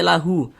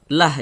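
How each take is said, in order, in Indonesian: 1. Kata ini diakhiri dengan vokal u tambahan. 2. Kata ini diakhiri dengan konsonan mati. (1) "jangan dibaca lahu" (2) "Ini kita baca lah"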